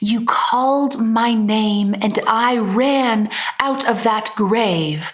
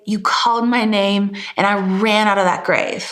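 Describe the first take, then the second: First: Every consonant is pronounced crisply and fully. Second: Many consonants are dropped for a loose sound. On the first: The speaker calls it wrong. "We don't say" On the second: The speaker calls it right. "It's super loose. I'm letting go of so many of the consonants"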